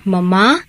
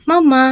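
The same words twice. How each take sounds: First: Said in the usual way. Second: High sing-song call of মামা. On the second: Real, not acted. Mother calling her sleeping pet, high sing-song.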